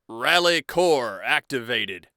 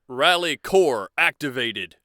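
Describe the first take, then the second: Both takes have the same delivery.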